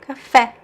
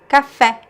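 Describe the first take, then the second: No difference in how they are said.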